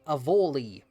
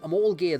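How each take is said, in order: First: The name ends softly in a vowel sound. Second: The name ends with a hard 'gid' sound. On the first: The speaker calls it right. "which with the M is probably how I would pronounce it" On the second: The speaker calls it wrong. "is how I've been pronouncing this, and I was thinking that can't be right"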